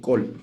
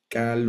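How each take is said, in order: First: The vowel is pronounced as an 'o' sound. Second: The vowel is pronounced as an 'a' sound. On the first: "otros la pronuncian como col" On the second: "Algunos la pronuncian como cal"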